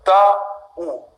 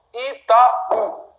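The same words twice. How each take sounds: First: "Itaú" broken into three separate syllables; divided into syllables. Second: "Itaú" higher, with a strong final Ú; stress on last syllable. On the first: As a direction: say "Itaú" as i, ta, ú with long gaps. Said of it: "divisão silábica". ("Itaú" em sílabas bem separadas) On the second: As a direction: lean on the Ú of "Itaú". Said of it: "Isso aqui é mais forte". ("Itaú" com força no Ú) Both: Shown as a demonstration.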